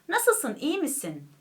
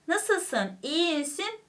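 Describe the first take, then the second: First: It is spoken with relaxed lips and jaw. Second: It is spoken with tense, exaggerated lips and jaw. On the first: The speaker calls it right. "dudaklar serbest, çene serbest bir şekilde en doğal halimizle" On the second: The speaker calls it wrong. "demiyoruz değil mi? Yani dudaklarımızı, çenemizi e, doğalın dışına sokmuyoruz"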